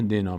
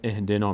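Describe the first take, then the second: First: The opening vowel is dropped and linked to before. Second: The word begins with a pronounced 'i' vowel. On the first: The verse is joined to the previous verse. "نون میچسبه به اینطور میشه" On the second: The recitation starts fresh at this verse. "کسره میگیره اینجا الف وصل"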